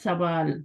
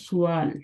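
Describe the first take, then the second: First: The word begins with 'sa' and has no break. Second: The word begins with 'su' and breaks before 'aal'. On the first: This is the Urdu form. "Urdu में बोलते हैं सवाल" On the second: This is the Arabic form. "अरबी में बोलते हैं सुआल"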